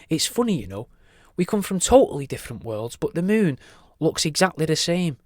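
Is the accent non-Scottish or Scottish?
non-Scottish. It is spoken without a Scottish accent.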